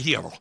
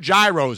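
First: The word begins with an h sound. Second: The word begins with a hard g sound. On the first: The speaker calls it right. "There's no H in it, but it has an H in it" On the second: The speaker calls it wrong. "You're not saying it right"

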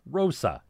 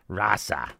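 First: The first vowel sounds like 'oh'. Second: The first vowel sounds like 'ah'. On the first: "I like to say rosa" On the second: "It just comes off the tongue easier than rasa"

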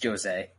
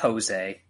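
First: The name starts with a hard J sound. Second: The name starts with a soft J sound. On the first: The speaker calls it right. "it's Jose, Portuguese, Brazilian, hard J" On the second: The speaker calls it wrong. "not Jose"

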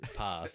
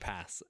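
First: It is said in a non-Manchester accent. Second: It is said in a Manchester accent. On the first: The speaker calls it wrong. "The Stone Roses from Manchester, so they're definitely not singing pass" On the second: The speaker calls it right. "They're singing pass, as I would say it"

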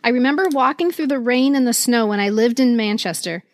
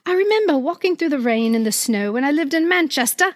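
First: It is read in the speaker's usual accent. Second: It is read in a put-on British accent.

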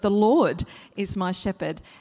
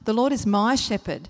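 First: The stress is on the word Lord. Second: The stress is on the word my.

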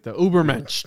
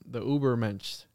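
First: The word is said in a rough, aggressive way. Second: The word is said in a plain, soft way.

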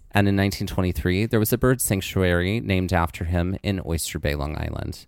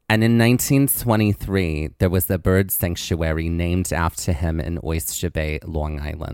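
First: It is said in a neutral accent. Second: It is said in a Long Island accent.

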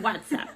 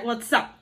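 First: The stress is on the first syllable, whats. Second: The stress is on the last syllable, app.

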